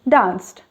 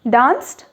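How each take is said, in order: First: The pitch falls at the end. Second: The pitch rises at the end. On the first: It is given as an answer. "the second one was an answer" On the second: It is asked as a question. "the first one is a question"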